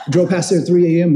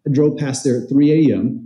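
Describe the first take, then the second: First: Laughing. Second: Said in the usual way. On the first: Real, not acted.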